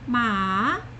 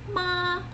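First: The pitch rises from middle to high. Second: The pitch stays high and level. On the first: "Second tone, ma, rising" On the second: "first tone"

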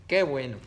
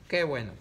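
Both takes have the same delivery.

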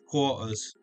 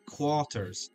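First: It is said with a British accent. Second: It is said without a British accent. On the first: "Or if I was saying it in British" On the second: "I've lost my British accent completely"

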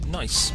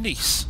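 First: It sounds like the English word 'nice'. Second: It does not sound like English 'nice'.

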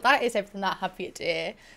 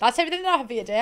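First: It is spoken slowly with careful enunciation. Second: It is spoken very fast and rushed. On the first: The speaker calls it right. "See how I'm enunciating now" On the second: The speaker calls it wrong. "why am I going at JoJo Seat with Speed?"

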